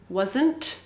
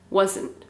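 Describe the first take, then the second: First: The final T sound is clearly pronounced. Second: The final T sound is dropped. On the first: "the correct pronunciation is wasn't" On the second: "Sometimes we don't pronounce that T"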